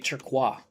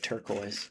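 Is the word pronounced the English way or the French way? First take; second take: French; English. First: It is said with a French pronunciation. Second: It is said with an English pronunciation. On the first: The speaker calls it right. "because it's a French word. It'd be" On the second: The speaker calls it wrong. "It's also a bastardized pronunciation of that word"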